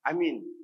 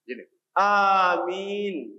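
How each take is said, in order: First: Both vowels are short. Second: Both vowels are long. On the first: Have faith. The speaker calls it wrong. "kita hanya baca. Amin" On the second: Answer the prayer. The speaker calls it right. "caranya yang betul adalah amin"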